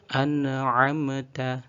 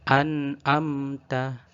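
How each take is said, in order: First: The consonants carry an added bouncing echo sound. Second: The throat consonant sounds like a plain vowel. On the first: "Contoh yang ada bacaan tawalludnya" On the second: "atau ainnya sama kayak a"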